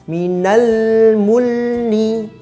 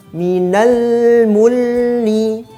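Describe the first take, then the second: Both takes have the same delivery.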